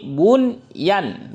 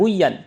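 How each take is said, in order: First: The n sound is pronounced clearly before the y. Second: The n sound is merged into the following y. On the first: The speaker calls it right. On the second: The speaker calls it wrong.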